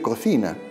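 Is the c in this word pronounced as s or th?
th. The second c is pronounced as a th sound. This is the Castilian way. The speaker calls it right. "Deberíamos decir cocina"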